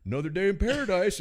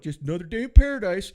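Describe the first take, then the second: First: Much higher echo of the catchphrase; mock catchphrase. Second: Much higher, louder sardonic quip; mock coworker catchphrase. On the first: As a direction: parrot the coworker mockingly. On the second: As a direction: deliver the tired catchphrase with fake cheer. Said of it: "He'd go".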